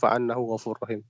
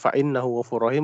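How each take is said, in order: First: The word after fa begins with an a vowel. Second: The word after fa begins with an i vowel. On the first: Forgiveness and mercy are the reward. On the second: It starts a new, independent sentence.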